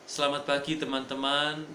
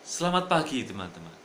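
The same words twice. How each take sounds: First: It is said flatly with little intonation. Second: It is said with lively intonation and volume. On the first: The message does not fully reach the listener. The speaker calls it wrong. "maka itu kurang sampai pesannya" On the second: The message gets across to the listener. The speaker calls it right. "Ini terbantu"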